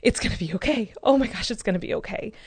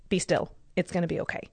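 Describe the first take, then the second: First: Mild, imitated wave of relief; understated relieved realization, retold without real tears; retold tearful relief. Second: Quiet, understated reassurance, retold; a hushed thought imitated in a calm voice; calm inner voice. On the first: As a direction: reassure yourself as if it just dawned. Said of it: "it was, like, a relief cry". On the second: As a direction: settle gently, dropping softer at the end. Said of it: "I, I immediately calmed down".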